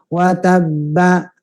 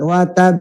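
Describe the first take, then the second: First: The final b carries a full vowel. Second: The final b ends with a short echoing bounce. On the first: "ketika vokal wa tabba" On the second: "ganti ba-nya dengan setengah vokal"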